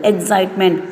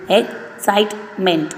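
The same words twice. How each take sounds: First: Said in the usual way. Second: "excitement" in three slow beats; slow syllable by syllable. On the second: Shown as a demonstration. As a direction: unpack "excitement" slowly. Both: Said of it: "three syllable".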